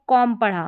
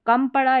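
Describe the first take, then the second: First: कॉम with an open "aw" vowel; pronunciation with "o". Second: कम with a short "uh" vowel; short, neutral vowel in कम; pronunciation with schwa. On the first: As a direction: say कॉम with a rounded vowel, like "calm". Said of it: "इसको कॉम पढ़ा". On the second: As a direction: say कम like English "come". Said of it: "अब ऊपर कम पढ़ा". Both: Shown as a demonstration.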